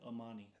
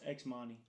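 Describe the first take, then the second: First: The name begins with a plain A sound. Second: The name begins with a spoken X sound. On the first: "just pronounce it like Amani, like the X be silent" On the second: "so I took the R off and I put an X"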